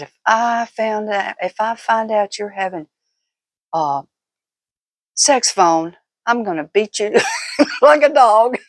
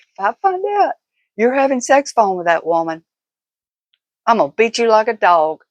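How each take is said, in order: First: Teasing mock threat. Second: Threat half-swallowed by laughter, starting higher; can barely get the threat out for giggling; laughing through it. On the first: Wife teasing husband about phone calls, playful mock threat. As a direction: tease him with a half-joking threat of a beating. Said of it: "I was teasing him here". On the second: Retold or imitated. Retelling her teasing threat to viewers, laughing through it.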